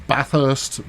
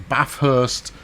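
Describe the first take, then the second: Both takes have the same delivery.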